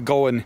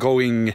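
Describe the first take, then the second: First: It is said with a Swindon regional accent. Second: It is said with a standard British accent. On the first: "they say going" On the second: "instead of going"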